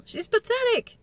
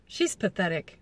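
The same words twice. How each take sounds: First: High, mocking singsong; mocking sneer. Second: Said in the usual way. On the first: Mocking Rachel.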